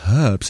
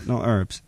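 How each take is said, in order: First: The word begins with a clear H sound. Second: The word begins with a vowel, no H. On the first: The speaker calls it right. "it's H-E-R-B-S. That's herbs" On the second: The speaker calls it wrong. "not herbs"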